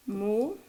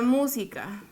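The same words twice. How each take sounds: First: Mú, si, ca with long pauses; syllable by syllable. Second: Said in the usual way. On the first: Shown as a demonstration. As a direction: break Música into three separate syllables. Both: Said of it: "Desglosemos la palabra música".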